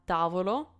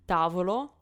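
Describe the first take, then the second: The two takes are said the same way.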